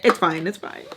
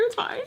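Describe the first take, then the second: First: Said in the usual way. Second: Soft, very high-pitched reassurance; self-justifying squeak. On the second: Real, not acted. Justifying it years later, in a tiny high voice. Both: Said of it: "Trying to justify it years later".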